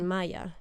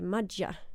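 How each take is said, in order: First: The middle consonant sounds like a 'y'. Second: The middle consonant sounds like English 'j'. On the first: This is the name's intended pronunciation. "Jag brukar ju byta till I, så att det blir Maja" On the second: This is how English speakers read the name. "då uttalar de ju gärna det Maja"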